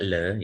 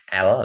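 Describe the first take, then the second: First: The letter name begins with the L sound. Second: The letter name begins with a vowel sound. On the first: The speaker calls it wrong. "tidak le ya, le itu lain" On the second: The speaker calls it right. "Cara bacanya tetap L ya"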